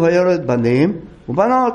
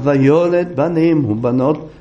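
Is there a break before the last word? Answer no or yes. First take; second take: yes; no. First: The last word is cut off by a break. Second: The phrase runs together without a break. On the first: The last word is left hanging without clear sense. The speaker calls it wrong. "אחר כך לא יודע מה בנות, לא מובן" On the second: He fathered both sons and daughters. The speaker calls it right. "הוליד גם בנים וגם בנות"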